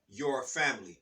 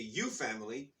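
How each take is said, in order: First: The r sound after 'you' is pronounced. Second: The r sound after 'you' is dropped. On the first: It sounds like something one merely owns. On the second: The listener feels personally connected.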